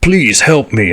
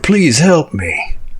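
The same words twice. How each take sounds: First: The voice is plain and unprocessed. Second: The voice is run through a voice changer. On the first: The speaker calls it wrong. "forgot to hit the voice changer" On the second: The speaker calls it right. "I'll do it again"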